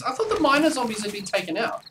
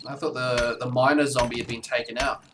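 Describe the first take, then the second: First: High, disbelieving surprise; surprised. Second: Said in the usual way. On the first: Real, not acted. Surprised by miner zombies.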